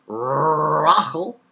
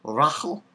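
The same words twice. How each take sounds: First: RACHEL with a long American growled R; exaggerated Chicago accent on the R; Chicagoan Rachel. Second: RACHEL with a quick European tapped R; short European r, throaty ch. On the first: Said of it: "a good Chicagoan Rachel". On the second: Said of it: "or a more European Rachel". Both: Shown as a demonstration.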